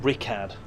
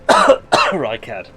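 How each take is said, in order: First: The first syllable does not sound like 'rye'. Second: The first syllable sounds like 'rye'. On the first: "Or Rikad" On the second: "R Y would suggest Rye"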